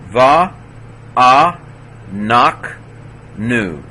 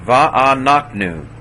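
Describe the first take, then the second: First: Va, a, nak, nu, each alone with long gaps; teacher's spaced-out breakdown, stepping down to nu; syllable by syllable. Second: Said in the usual way. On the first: Shown as a demonstration. Teacher sounds word out by syllables.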